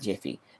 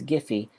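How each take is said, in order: First: It begins with a J sound. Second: It begins with a hard G sound. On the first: The speaker calls it wrong. "not Jiffy. Jif is peanut butter" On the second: The speaker calls it right. "this is Giphy"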